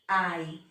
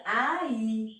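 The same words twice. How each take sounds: First: Ai said as one gliding syllable, like "eye"; without accent. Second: Ai split into two syllables, a-Í, stress on the í; with accent. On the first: Teacher showing students the word without accent, one glide syllable. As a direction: glide ai together in a single beat. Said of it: "se tirar o acento fica". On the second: Teacher showing students the accented word, split a-í. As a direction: break ai apart and land on the í. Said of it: "se eu coloco um acento fica". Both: Shown as a demonstration.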